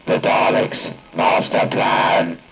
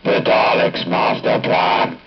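The two takes are said the same way.

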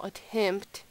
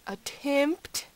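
First: Said in the usual way. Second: "attempt" pitched up with a rising end; stress on attempt. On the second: Real, not acted. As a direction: underline "attempt" as only a try, lifting it high. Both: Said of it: "I'm not saying we will".

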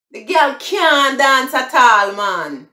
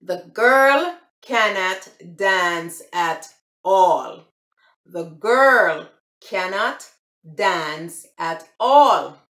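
First: High, loud Jamaican patois. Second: Slow, careful standard English; proper English. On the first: Showing viewers the patois version, in Jamaican patois. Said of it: "that's the broken English". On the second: Contrasting the patois with standard English, slowly. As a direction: spell out The girl cannot dance at all in slow standard English. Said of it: "the English version would be". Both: Shown as a demonstration.

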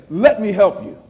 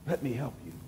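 First: Said in the usual way. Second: Much softer and lower, an intimate echo; God's offer repeated gently to the congregation, hushed. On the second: Acted. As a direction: let the repeat drop almost to a hush. God's offer echoed softly.

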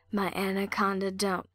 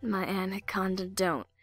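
The two takes are said the same way.

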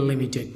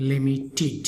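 First: The common wrong লিমিটেড; লিমিটেড with a hard ted; wrong pronunciation. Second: লিমিটেড softer, ending in tid; the right লিমিটেড, with a light tid; লিমিটেড ending in tid, not dead; correct pronunciation. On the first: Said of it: "আমরা অনেক সময় বলেই". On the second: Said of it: "correct উচ্চারণ হবে". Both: Shown as a demonstration.

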